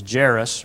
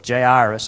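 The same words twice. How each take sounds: First: "Jairus" said as two syllables, like JERR-us; "Jairus" as JAIR-us, no separate "eye"; first pronunciation of Jairus. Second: "Jairus" drawn out as jay-EYE-rus; "Jairus" with a clear "eye" in the middle; alternative pronunciation of Jairus. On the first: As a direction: say "Jairus" short, rhyming with heiress. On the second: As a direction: say "Jairus" slowly in three syllables. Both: Shown as a demonstration. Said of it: "however you want to say it".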